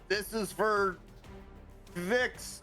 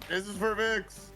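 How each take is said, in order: First: It is said tentatively, without much force. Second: It is said firmly, with strong conviction.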